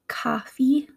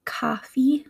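First: It is spoken in a Midwestern accent. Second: The same.

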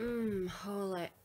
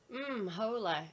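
First: It is said in an exaggerated sexy way. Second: It is said in a plain, unseductive way.

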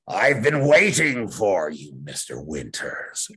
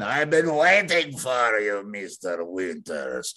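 First: The voice is low and growly. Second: It has an Eastern European accent. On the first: "it's not really that growly" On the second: "You don't have to do the Eastern European accent"

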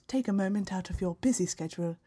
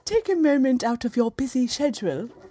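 First: 'Schedule' begins with a 'sk' sound, American style. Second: 'Schedule' begins with a 'sh' sound, British style. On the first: The speaker calls it wrong. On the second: The speaker calls it right.

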